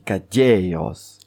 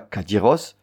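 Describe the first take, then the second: First: The stress falls on the second-to-last syllable. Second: The stress falls on the final syllable. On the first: The speaker calls it right. "on dit cadieros" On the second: The speaker calls it wrong. "On dit pas cadiros"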